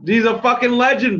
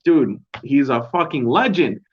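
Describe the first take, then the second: First: He's a fucking legend, fucking pitched much higher; excited emphasis. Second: Said in the usual way. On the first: Real, not acted. Praising Arlovski to viewers, excited emphasis. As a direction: lift it up in pure admiration.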